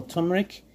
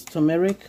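First: "turmeric" in two syllables, TUM-rik; local pronunciation. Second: "turmeric" in three syllables, tuh-MEH-rik; Ghanaian pronunciation. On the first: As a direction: drop the middle vowel in "turmeric". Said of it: "Here we call it turmeric". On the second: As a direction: keep the middle vowel in "turmeric". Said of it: "Ghanaian people call it turmeric". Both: Shown as a demonstration.

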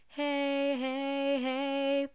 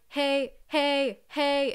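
First: Sung, glide the heys together, legato; sung, smooth legato. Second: Hey punched loud and high; punchy. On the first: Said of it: "instead of". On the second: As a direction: punch each hey with bursts. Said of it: "punchy meaning we're singing like". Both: Shown as a demonstration.

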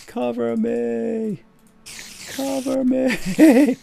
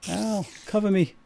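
First: High, slow drawn-out shout; cover me shout. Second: Said in the usual way. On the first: Pretend. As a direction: wail it long and high.

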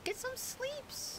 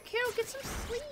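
First: Much higher, slow and softer, cutesy; silly baby voice. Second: Much higher, sing-song self-reminder; playful high reminder. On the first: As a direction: draw it out like a sleepy cartoon. Silly repeat of sleep reminder. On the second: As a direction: nag yourself in a high voice. Telling herself to go sleep. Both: Pretend.

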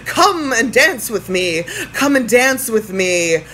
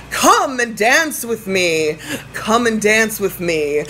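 The two takes are said the same way.

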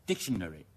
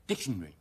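First: Dictionary in full, DIC-shuh-nuh-ree; every syllable clear. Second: Dictionary squeezed to DIC-shn-ree; shortened British form. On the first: Teacher reading from phonetic symbols, clear full syllables. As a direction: say all syllables of dictionary unhurried. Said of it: "讀得清清楚楚呢". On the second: Teacher showing how Britons clip it, shortened form. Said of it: "好似好短噉". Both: Shown as a demonstration.

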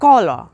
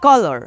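First: British কলার with the final r barely sounded; British accent. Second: American কলার ending in a sounded "or"; American accent. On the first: Teacher shows learners UK pronunciation of কলার, British accent. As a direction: say কলার the UK way, tiny r. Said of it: "UK যদি উচ্চারণ করি". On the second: Teacher shows learners how Americans say কলার, American accent. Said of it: "আমেরিকানরা ওরকম অন্যরকম বলে". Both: Shown as a demonstration.

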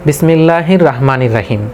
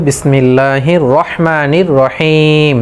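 First: "রাহমানির রাহিম" with a thin, open "raa"; common mispronunciation. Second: Slow recitation, "রহমানির রহিম" with a full, rounded "ro"; correct heavy recitation. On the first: Teacher showing what many of us say, mispronounced "রাহমানির রাহিম" with thin raa. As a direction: say "রাহমানির রাহিম" with a light R and aa vowel. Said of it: "রা পড়লাম". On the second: Teacher modelling how we must say it, slow heavy-R "রহমানির রহিম". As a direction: draw out "রহমানির রহিম", R heavy with an o-coloured vowel. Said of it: "তাহলে আমাদেরকে বলতে হবে". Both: Shown as a demonstration.

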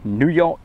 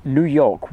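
First: Said in the usual way. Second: Mock New York accent, higher and louder; silly New York accent. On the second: Host greeting a viewer's city, silly New York accent. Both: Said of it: "do that silly accent of".

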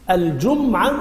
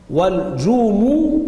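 First: الجمعة as al-jum-'a, no vowel after m; sukun on the meem. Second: والجمو as wal-juu-muu, slow long u's; damma on the meem. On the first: Teacher demonstrating the reading, الجمعة said al-jum-'a with silent meem. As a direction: close the lips on the m of الجمعة, then 'a. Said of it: "بالسكون، سكون الميم". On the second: Teacher demonstrating the other reading, والجمو with a drawn-out mu. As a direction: draw out an u after the meem in والجمو. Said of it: "بضم الميم". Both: Shown as a demonstration.

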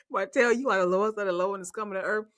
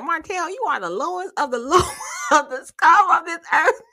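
First: Said in the usual way. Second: High, louder dramatic quote; hammed-up higher insult rising at the end; mock Mel telling off. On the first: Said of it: "so when Mel said". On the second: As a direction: deliver it like a grand insult. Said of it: "She said".

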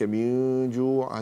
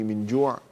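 First: Slow من جوع with a long nasal hum for n; drawn-out من جوع, nasalised into the ج; hidden noon. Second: Said in the usual way. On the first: Shown as a demonstration. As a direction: hide the n of من in a hum before جوع. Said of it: "هذا إخفاء حقيقي".

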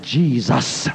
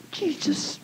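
First: Firm, low, steady name, no stutter; with authority. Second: Breathy whispered name, barely audible; under my breath. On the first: Calling on Jesus against the gunman, firm authority. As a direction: say it like you command it. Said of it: "I said it with authority". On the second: Praying to Jesus in the car, whispered. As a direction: whisper it, hiding it from the gunman. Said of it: "But under my breath". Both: Retold or imitated.

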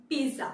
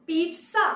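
First: "pizza" as PEE-za, falling; t left out. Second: "pizza" as PEET-sa, higher and rising; t emphasized. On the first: Teacher offering the other option, "pizza" as PEE-za. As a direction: say "pizza" without the t sound. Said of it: "Is it". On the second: Teacher asking which is right, "pizza" as PEET-sa. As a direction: say "pizza" with a clear t before s. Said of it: "correct pronunciation হবে". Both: Shown as a demonstration.

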